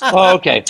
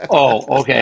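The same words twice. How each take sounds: First: Higher "Oh, okay" as it clicks; amused, sudden understanding; dawning realization. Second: Said in the usual way. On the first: Retold or imitated. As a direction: let the penny drop on "Oh". Second take, realization dawning.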